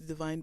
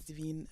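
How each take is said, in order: First: The name is said with an English pronunciation. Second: The name is said with a French pronunciation. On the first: The speaker calls it wrong. "as opposed to Divine" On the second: The speaker calls it right. "pronounced as Divine"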